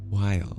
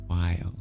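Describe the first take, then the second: First: The vowel sounds like 'eye', as in while. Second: The same.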